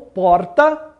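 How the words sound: The R sounds like São Paulo speech.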